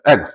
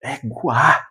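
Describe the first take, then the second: First: ÉGUA squashed into a very quick blip; tiny, hurried ÉGUA; double-speed playback. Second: ÉGUA stretched out with a strong second syllable; emphatic, lengthened ÉGUA; intonation demo. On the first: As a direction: rush ÉGUA as if sped up. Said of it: "no dois, tu não ouve isso". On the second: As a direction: draw out ÉGUA as a full exclamation. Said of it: "O tom". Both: Shown as a demonstration.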